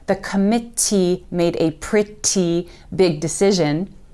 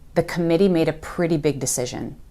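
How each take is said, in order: First: The middle T sounds are crisp and clear. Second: The middle T sounds are soft like D. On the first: The speaker calls it wrong. "So you're not going to hear us say" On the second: The speaker calls it right. "It's going to be"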